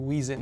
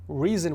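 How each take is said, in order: First: The word begins with a W sound. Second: The word begins with a normal R sound.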